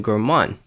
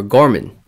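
First: "Gorman" said as gor-MAHN, long open second vowel; "Gorman" with a drawn-out MAHN ending; Gor-MAHN pronunciation. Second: "Gorman" said as GOR-mun, weak second vowel; "Gorman" with a strong GOR and short, reduced ending; GOR-mun pronunciation. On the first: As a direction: stress the end of "Gorman", rhyming it with "on". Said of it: "I always pronounce it Gorman". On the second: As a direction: stress the first syllable of "Gorman". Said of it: "I'm pretty sure it's pronounced Gorman". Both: Shown as a demonstration.

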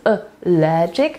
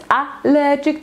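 First: Allergic stressed on the second syllable, al-LER-gic; correct stress. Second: Allergic stressed on the first syllable, AL-ler-gic, pitched up; wrong stress. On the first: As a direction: land the beat on LER in allergic. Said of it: "akcent jest na drugą sylabę". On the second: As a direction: hit the start of allergic, the wrong way. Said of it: "Mamy akcent na logic, więc to nie jest". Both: Shown as a demonstration.

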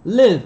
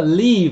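First: LIVE with a short, light i. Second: "leave" with a long ee, loud; wrong long vowel. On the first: Teacher modelling "live your day" for students, short light i in LIVE. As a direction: say "Live" with a lax, light vowel. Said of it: "âm y nhẹ". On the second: Teacher warning students off saying leave, wrong long ee. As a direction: mistaken LEAVE, tense long vowel in place of short i. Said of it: "đừng nói là leave". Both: Shown as a demonstration.

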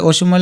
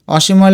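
First: অসীমও as o-shim-o; closed first vowel. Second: অসীমও as aw-shim-o; open first vowel. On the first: Teacher allowing either spelling, অসীমও said o-shim-o. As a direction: start অসীমও on a round o. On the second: Teacher allowing either spelling, অসীমও said aw-shim-o. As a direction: start অসীমও on a wide aw. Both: Shown as a demonstration. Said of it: "অসীমও লেখা যাবে".

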